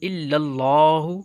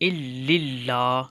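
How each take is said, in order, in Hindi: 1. पहले L के बाद का स्वर 'a' है। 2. पहले L के बाद का स्वर 'i' है। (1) "ज़बर" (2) "ज़बर की बजाय ज़ेर से पढ़ते हैं, जो कि गलत है"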